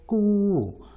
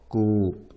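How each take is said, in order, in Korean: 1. 이 말은 길고 둘째 성조입니다. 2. 이 말은 성조 표시 없이 평평하게 읽습니다.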